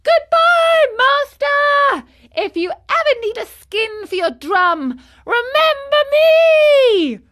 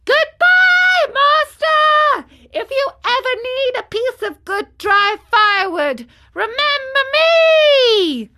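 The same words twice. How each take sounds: First: Very high, loud taunting farewell; laughing call. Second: Very high, full-voiced taunting shout; louder calling out. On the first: Marionette swimming away from his master, gleeful shout. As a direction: call out gleefully, stretching the last words. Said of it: "he cried out, laughing". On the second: Marionette far out at sea calling his master, loud shout. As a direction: holler it far, stretching the last words. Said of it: "called out louder than before". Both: A narrator's reading.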